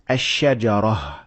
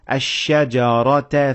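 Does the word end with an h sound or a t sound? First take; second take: h sound; t sound. First: The word ends with an h sound. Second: The word ends with a t sound. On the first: The reader pauses at this word. "when I stopped at it, I said ash-shajarah" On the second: The reader continues without pausing. "when I kept on reading, I said ash-shajarata fatakuna. I pronounced it as ta"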